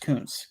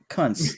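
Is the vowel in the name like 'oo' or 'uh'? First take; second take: oo; uh. First: The name is said with an 'oo' vowel. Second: The name is said with an 'uh' vowel. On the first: This is the player's real name. The speaker calls it right. "that's how you pronounce it though" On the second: This would sound like a rude word. The speaker calls it wrong. "if it were Kuntz, that'd be bad. So with a Z"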